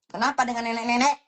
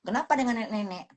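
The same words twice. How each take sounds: First: "nenek-nenek" pushed louder with a rising end; louder challenge. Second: Said in the usual way. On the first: Shown as a demonstration. To her haters, a louder challenge rising on "nenek-nenek". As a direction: throw the question back, stressing "nenek-nenek" on a rise.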